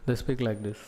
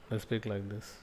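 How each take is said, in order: First: Said in the usual way. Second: Very soft, hand over the mouth; humble hushed speech. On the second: Shown as a demonstration. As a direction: speak softly and humbly, as to a guru. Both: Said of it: "they put the hand like this and speak".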